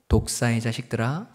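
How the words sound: It is said in a soft, gentle tone.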